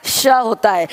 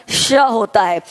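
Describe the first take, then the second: No difference in how they are said.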